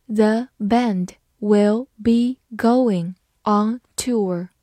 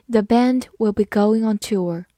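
First: Very slow, word by word with pauses; slow reading. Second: Said in the usual way. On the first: Shown as a demonstration. English teacher models the new sentence for learners, slow reading. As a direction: read it slowly, separating each word. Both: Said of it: "好，慢慢来读".

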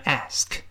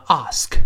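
First: "ask" with the front "a" of "cat"; American flat-A "ask", not "ahsk"; American pronunciation. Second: "ask" with a long open "ah"; British broad-A "ask"; British pronunciation. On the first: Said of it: "由啊变成a". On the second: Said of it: "英式发音读成". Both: Shown as a demonstration.

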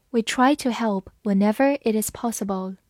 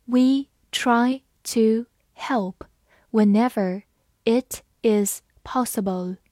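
First: Said in the usual way. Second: Slow, word-by-word model reading. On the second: Shown as a demonstration. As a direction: read it slowly with gaps between words. (慢慢逐词朗读) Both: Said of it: "我们把完整的句子慢慢来读".

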